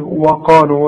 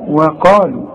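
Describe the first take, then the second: First: The opening w sound is heavy and thick. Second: The opening w sound is light and thin. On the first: The speaker calls it wrong. "وقلت لي وقالوا وده خطأ" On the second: The speaker calls it right. "الواو دائما في القرآن مرققة"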